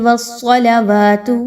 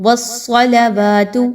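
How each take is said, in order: Both takes have the same delivery.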